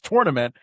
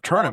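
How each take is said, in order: First: The first syllable sounds like 'tour'. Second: The first syllable sounds like 'ter'. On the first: The speaker calls it right. "T O U R, it seems like it should be said like it" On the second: The speaker calls it wrong. "Tournament seems more like T E R"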